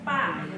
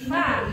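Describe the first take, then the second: First: It begins with a p sound. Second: It begins with an f sound. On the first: The speaker calls it wrong. "jangan kita mengikuti logat daerah pa salah ya" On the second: The speaker calls it right. "jadi fa"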